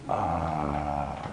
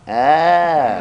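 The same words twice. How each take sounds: First: The sound is deep, from the belly. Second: The sound is high-pitched.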